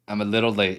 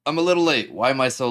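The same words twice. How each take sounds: First: Said in the usual way. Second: High, loud burst of energy; bouncy, much higher and louder; excited. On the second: Shown as a demonstration.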